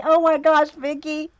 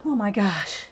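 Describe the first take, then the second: First: Higher and louder, delighted outburst; Oh my gosh thrown out high and loud with glee; excited oh my gosh. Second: Said in the usual way. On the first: Real, not acted. Excited reaction to friend Vicky.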